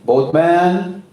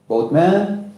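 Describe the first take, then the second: First: It is said noticeably louder. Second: It is said at normal, softer volume.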